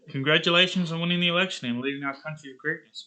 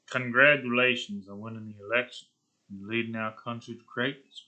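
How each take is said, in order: First: It is said in a plain, ordinary politician tone. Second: It is said in a menacing, villainous tone. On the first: The speaker calls it wrong. "that doesn't sound like a supervillain. That just sounds like your regular old, like, politician man" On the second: The speaker calls it right. "you imagine, like, Tony Stark was a bad guy"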